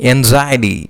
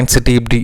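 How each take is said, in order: First: The word sounds like ang-zai-uh-tee. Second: The word sounds like ang-sigh-tee. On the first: The speaker calls it right. "Correct pronunciation is anxiety" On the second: The speaker calls it wrong. "Wrong pronunciation"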